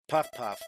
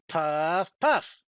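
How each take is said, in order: First: It is said flatly, without energy. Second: It is said with lots of gusto.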